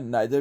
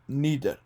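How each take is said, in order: First: The first vowel sounds like 'eye'. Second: The first vowel sounds like 'ee'.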